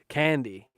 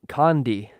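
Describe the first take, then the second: First: The first vowel sounds like the one in 'can'. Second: The first vowel sounds like the one in 'con'. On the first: The speaker calls it right. "Candy, not Condi" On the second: The speaker calls it wrong. "I pronounced it out loud and embarrassed myself publicly"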